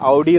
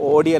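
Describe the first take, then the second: First: The first vowel is a gliding 'ow' sound. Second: The first vowel is a plain 'oh' sound. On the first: The speaker calls it right. "ഔഡി എന്ന് പറയണമെന്ന്" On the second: The speaker calls it wrong. "ഓഡി അല്ല"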